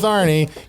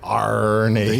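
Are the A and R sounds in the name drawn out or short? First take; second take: short; drawn out. First: The name is said softly with short sounds. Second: The name is said with drawn-out A and R sounds. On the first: The speaker calls it wrong. "still your cadence and your tone is a little too soft and sweet" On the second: The speaker calls it right. "elongate the A's and the R's in your first name"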